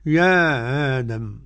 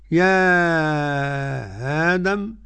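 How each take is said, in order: First: A softened glottal stop and a short vowel. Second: A softened glottal stop and a long drawn vowel. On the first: "والقصر" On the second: "التسهيل مع المد"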